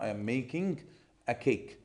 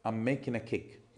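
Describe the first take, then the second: First: It is spoken with an Egyptian Arabic accent. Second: It is spoken with a native-like English accent.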